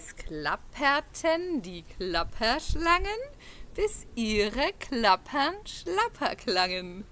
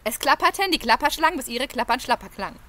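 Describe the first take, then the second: First: It is said at a slow pace. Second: It is said very fast.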